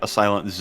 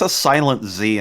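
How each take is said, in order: First: The letter is said the Canadian way. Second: The letter is said the usual American way.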